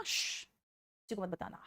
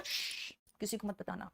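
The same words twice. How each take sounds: First: Slow, soft hushed secret with a shh; slow hushed don't-tell-anyone. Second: Soft hushed whisper of a secret; quietly shushing a secret. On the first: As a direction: draw out the shh, then whisper don't tell, slowly. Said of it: "मैंने क्या कहा?". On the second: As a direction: shush them, then whisper don't tell anyone. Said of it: "हश आप". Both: Shown as a demonstration.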